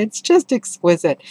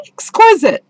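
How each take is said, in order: First: "It's just exquisite." a little higher, calmer delight; gentler "exquisite". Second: Rapturous "exquisite". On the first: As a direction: settle into "exquisite". Repeating the praise calmer. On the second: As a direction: sing out "exquisite" in delight. Gushing over a passage. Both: Real, not acted.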